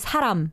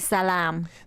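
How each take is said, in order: First: The middle consonant is a light flapped R. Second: The middle consonant is a clear L. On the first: The speaker calls it right. "You say saram" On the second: The speaker calls it wrong. "You don't say salam"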